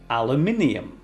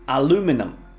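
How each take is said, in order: First: It is said with a British accent. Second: It is said with an American accent.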